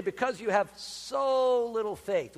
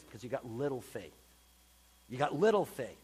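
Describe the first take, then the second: First: "so" leaned on in "so little faith", slowed; stress on SO. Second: Said in the usual way. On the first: Shown as a demonstration. Preacher showing the congregation the misleading emphasis on "so". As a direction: press hard on "so" to mock the wording. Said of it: "with an emphasis on the word "so". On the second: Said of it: "He simply says this".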